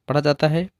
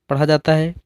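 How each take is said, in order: No difference in how they are said.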